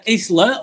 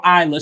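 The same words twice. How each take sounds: First: Isla said as iz-la, short i and a z sound; Isla pronounced iz-la. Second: Isla said eye-luh with a long i and a silent s; Isla pronounced eye-la. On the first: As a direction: say Isla as iz-luh. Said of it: "or Isla". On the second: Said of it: "sorry, is it Isla?". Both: Shown as a demonstration.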